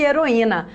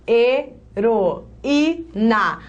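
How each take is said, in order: First: Said in the usual way. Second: Very slow heroína split into he, ro, í, na; syllable by syllable. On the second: Shown as a demonstration. Teacher showing the lone í to students, syllable by syllable. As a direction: stand each syllable of heroína on its own. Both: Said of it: "Ao separar as sílabas".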